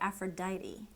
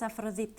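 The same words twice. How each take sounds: First: The name is said with English pronunciation. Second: The name is said with Greek pronunciation. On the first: "In English, we say Aphrodite" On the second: "So in Greek, it's Aphrodite"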